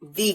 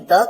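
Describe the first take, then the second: First: The word ends in a long 'ee' vowel. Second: The word ends in a short 'uh' vowel. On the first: "कहीं दी कहते हैं" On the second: "जिसे आप कहीं द कहते हैं"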